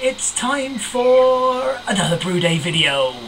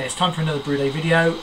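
First: It is said in an affected presenter voice. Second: It is said in a relaxed natural voice.

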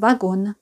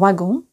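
First: The final vowel is oral, ending in an n. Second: The final vowel is nasal, French style. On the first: This is how it is heard in Russian. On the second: This is the French pronunciation.

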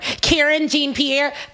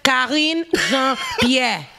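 First: The first name is said like Karen. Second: The first name is said like Kareen. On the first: The speaker calls it wrong. "I know a lot of people are" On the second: The speaker calls it right. "If you guys want to know the pronunciation"

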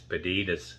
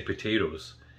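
First: The t sounds are softened into d-like sounds. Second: The t sounds are pronounced as crisp t's. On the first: This is how the imitated people say it. The speaker calls it right. "It's potatoes. P-A-D-A-D-A-S" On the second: This is not how the imitated people say it. The speaker calls it wrong. "They don't say potatoes"

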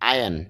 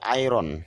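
First: No R sound is pronounced in the middle. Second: An R sound is pronounced in the middle. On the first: The speaker calls it right. "তাহলে আয়রন না, উচ্চারণটা হবে আয়ন" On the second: The speaker calls it wrong. "এই শব্দটা যদিও আমরা বলে আসছি আয়রন"

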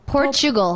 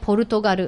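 First: It is said with English pronunciation. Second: It is said with Japanese pronunciation. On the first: The speaker calls it right. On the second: The speaker calls it wrong.

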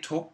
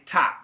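First: The vowel is not an open 'ah' sound. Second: The vowel is an open 'ah' sound. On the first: The speaker calls it wrong. "We don't say top" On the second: The speaker calls it right. "We say top"

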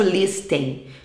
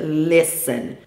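First: The t sound is pronounced. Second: The t sound is silent. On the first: The speaker calls it wrong. "A gente não fala to listen" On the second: The speaker calls it right. "é listen"

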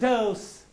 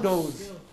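First: The word ends in an 's' sound. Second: The word ends in a 'z' sound. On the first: The speaker calls it right. "It is dose" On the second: The speaker calls it wrong. "not dose"

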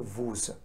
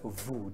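First: The final s sound is pronounced. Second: The final s sound is silent. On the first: The speaker calls it wrong. "Please don't say vous" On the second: The speaker calls it right. "It is vous. This is silent"

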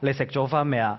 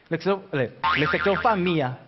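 First: It is spoken in the Guangzhou Cantonese accent. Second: It is spoken in the Shiqi dialect accent. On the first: "廣州話，" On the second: "呢石岐話咧。"

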